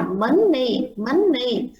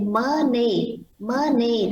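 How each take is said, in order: First: MONEY wrongly split as mon-ni with a long double N; doubled-N money. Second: MONEY with just one short N, mo-ni; slow teacher's model of MONEY with a single N. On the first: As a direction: hold the N in MONEY across both syllables. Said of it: "mình đọc hai âm N". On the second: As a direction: say MONEY without doubling the middle N. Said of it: "nó chỉ có một âm M đó". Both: Shown as a demonstration.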